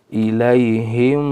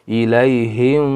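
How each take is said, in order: The two takes are said the same way.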